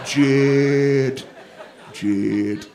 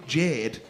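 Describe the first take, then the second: First: "Jade" dragged out as a booming "Jud", like a tugboat horn; mock mangled name. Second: Said in the usual way. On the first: Comic mimicking the guest's mumbled name as a tugboat "Jud". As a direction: honk "Jade" as "Jud", louder, like a foghorn. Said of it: "It's like a tugboat". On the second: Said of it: "She's trying to say Jade".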